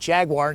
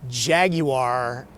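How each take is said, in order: First: It is said with an American pronunciation. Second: It is said with a British pronunciation.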